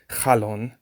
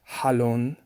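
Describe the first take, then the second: First: It starts with a scraping ch sound. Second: It starts with a breathy, throaty h sound. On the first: "most people would say halon" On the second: "het is like the sound that you would have when you breathe um, on glasses"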